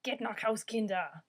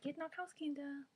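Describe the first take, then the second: First: Loud barked order, Geht nach Haus, Kinder!; angry German command shouted at kids. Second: Put-on sing-song gentle German to the kids. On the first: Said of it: "I want to say them angrily". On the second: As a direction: coax "Geht nach Haus, Kinder" tenderly, voice raised high. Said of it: "I guess you could say it like". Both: Shown as a demonstration.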